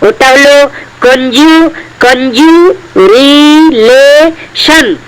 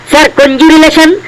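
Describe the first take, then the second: First: Slow sounding out. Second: Said in the usual way. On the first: Acted. Student sounds out a hard word.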